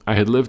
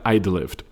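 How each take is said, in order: First: The word had is said fully and separately. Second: Had shrinks to a slight d sound. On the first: The speaker calls it wrong. "nobody says I had lived" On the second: The speaker calls it right. "Everybody says I'd lived. It's a slight D sound"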